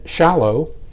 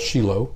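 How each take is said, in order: First: The name is pronounced the usual English way. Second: The name is pronounced the Hebrew way.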